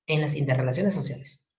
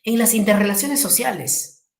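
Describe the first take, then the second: First: Quiet echo of "En las interrelaciones sociales" for the class to note down; softer repeat. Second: Said in the usual way. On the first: Shown as a demonstration. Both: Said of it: "¿Dónde?".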